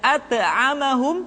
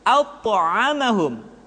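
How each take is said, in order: First: The consonant before the m sounds thin. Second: The consonant before the m sounds thick. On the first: The speaker calls it wrong. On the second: The speaker calls it right.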